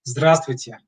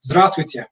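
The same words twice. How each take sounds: First: Slower repeat demo; Russian zdravstvuyte repeated. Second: Здравствуйте as "ZDRAST-vuy-tye", stress on the first syllable; formal hello demo; Russian zdravstvuyte. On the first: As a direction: repeat Здравствуйте for learners to echo. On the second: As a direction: model Здравствуйте clearly for students. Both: Shown as a demonstration. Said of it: "with the hello".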